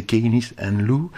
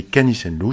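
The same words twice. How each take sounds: First: "Canis" said the English way, like "KEH-nis and Lou"; "Canis and Lou" pronounced as in English, "Kenis"; English pronunciation. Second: "Canis" said the French way, "ka-nis and Lou"; plain French reading: "Canis" with an open "a"; "Canis and Lou" pronounced as in French, "Ka-nis"; French pronunciation. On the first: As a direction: try it in English: "Canis" with an "eh" sound. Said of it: "je sais pas comment ça se prononce à l'anglaise". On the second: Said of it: "je le prononce à la française". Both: Shown as a demonstration.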